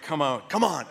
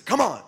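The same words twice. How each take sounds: First: Said in the usual way. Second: Higher, louder mock bark; exasperated shout. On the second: Director pleading with a giggling cast, exasperated shout. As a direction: imitate a director urging the cast, fed up.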